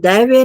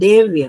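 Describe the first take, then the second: First: The first vowel is the diphthong 'ai'. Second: The first vowel is a plain 'e'. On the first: The speaker calls it wrong. "दैव्य नहीं" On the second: The speaker calls it right.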